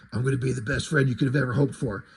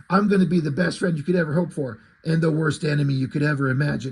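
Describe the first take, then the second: First: A quick, much lower growl; reading Batman's promise to the kid, fast and low. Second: Re-reading Batman's full threat with a lighter gruffness. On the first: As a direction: rattle it off low and gruff. First reading of the line. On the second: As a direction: lower but steadier, fuller reading. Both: Retold or imitated.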